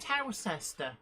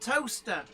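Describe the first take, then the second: First: It is said with three syllables, as spelled. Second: It is said with two syllables, like toaster. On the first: "why nobody ever mentioned Towcester" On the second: "it's called Toaster"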